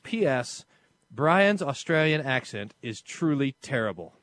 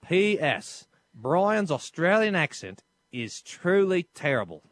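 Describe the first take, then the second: First: It is read in the speaker's normal accent. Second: It is read in a put-on Australian accent.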